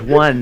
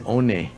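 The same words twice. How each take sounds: First: It is said as one syllable, 'wun'. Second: It is read out as two syllables, 'oh-neh'.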